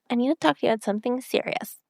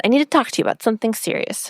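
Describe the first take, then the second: First: Higher, quick imitation baby voice; mock baby voice, high and hurried; Rory. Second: Quick, lightly imitated baby voice; hint at a babyish voice, rushed; a touch of baby talk, quickly; slight baby voice. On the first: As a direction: put on a small babyish voice, rushed. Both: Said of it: "It was kind of in her baby voice".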